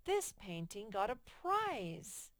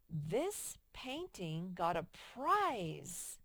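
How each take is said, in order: First: Slow and emphatic, with a touch of excitement; a teacher reading the corrected sentence as an exclamation. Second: Slow, flat read of the uncorrected sentence; slow classroom reading with the error left in; flat, wrong reading. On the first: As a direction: give it the exclamation mark's punch. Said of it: "they didn't end it with an exclamation mark". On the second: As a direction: read it as written, no exclamation. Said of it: "Okay, what's wrong?". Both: Shown as a demonstration.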